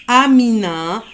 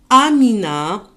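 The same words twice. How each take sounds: The two takes are said the same way.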